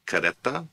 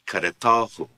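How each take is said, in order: First: Kareta stressed on re, rising at the end. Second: Karetahu with stress on ta, falling at the end. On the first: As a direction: teach Kareta with the weight on re. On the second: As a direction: teach karetahu, hitting ta. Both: Shown as a demonstration. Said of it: "Note the change in the stress".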